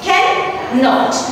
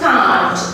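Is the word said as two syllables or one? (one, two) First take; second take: two; one. First: It is said in full as two syllables. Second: It is said contracted as one syllable. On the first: "When we are writing the complete word like this" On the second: "The pronunciation will be like this"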